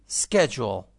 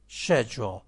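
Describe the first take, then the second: First: Schedule modelled firmly with an SK start; American pronunciation. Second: Schedule modelled with an SH start; British pronunciation. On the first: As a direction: say Schedule as SKED-jool for learners to repeat. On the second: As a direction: say schedule as SHED-jool for learners to repeat. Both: Shown as a demonstration.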